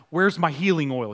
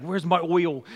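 First: Said in the usual way. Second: Imitating a Boston accent; lightly mimicked Boston accent on "oil". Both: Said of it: "saying it with a Boston accent".

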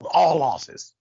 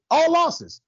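First: Said in the usual way. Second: "All losses" again with "All" hit higher and louder; emphatic repeat. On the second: Shown as a demonstration. Host repeating the point to the audience, punching "All" high and loud.

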